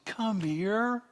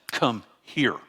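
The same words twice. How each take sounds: First: Very high, rising, sweet coaxing call; doting grandparent beckoning in a high voice; coaxing a grandchild. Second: Firm command, "Come" and "here" set apart; stern grandparent's summons, no lilt; stern to a grandchild. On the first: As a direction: coax a little one over, voice lilting way up. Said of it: "Inflection is me looking at my grandchild". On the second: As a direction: order a child over, each word falling. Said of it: "me looking at my grandchild and saying". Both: Shown as a demonstration.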